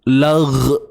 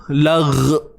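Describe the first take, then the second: Both takes have the same delivery.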